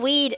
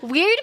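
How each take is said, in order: First: The word is said with no R sound. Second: The word is said with an audible R.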